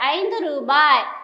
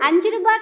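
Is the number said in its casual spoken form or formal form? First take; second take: formal; casual. First: The number is said in its formal written form. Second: The number is said in its casual spoken form. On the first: This is the written, formal form. The speaker calls it right. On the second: This is how it is said in everyday speech. The speaker calls it wrong.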